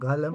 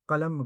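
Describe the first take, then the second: First: The word begins with a throaty gh sound. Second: The word begins with a hard back q sound. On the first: "तेहरानी लहजे में ग़ैन हो जाता है" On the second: "क़ाफ़ आता है"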